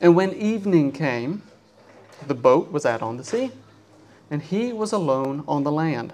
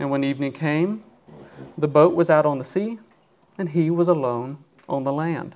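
Both takes have the same delivery.

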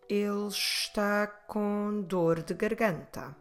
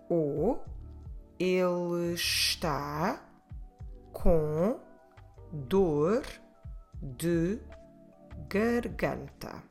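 First: It is said more quickly. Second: It is said at a normal pace.

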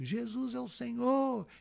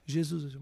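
First: It is shouted at full volume. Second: It is said more strongly and loudly.

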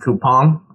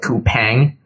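First: The last syllable sounds like 'pon', as in coupon. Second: The last syllable rhymes with 'bang'. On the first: The speaker calls it right. "but it's actually pronounced coupon" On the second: The speaker calls it wrong. "You'd think it's called coupang"

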